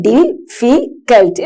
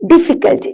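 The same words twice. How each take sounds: First: difficult broken into separate syllables, slowly; teacher slowly sounding out each syllable of difficult. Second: Said in the usual way. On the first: Shown as a demonstration. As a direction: say difficult in slow pieces, pausing after each syllable. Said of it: "ഒരു ബ്രീത്തിലല്ല നിങ്ങൾ ആ word". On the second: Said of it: "നിങ്ങൾ ഒറ്റ പറയാം".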